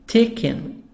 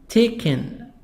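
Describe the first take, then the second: Both takes have the same delivery.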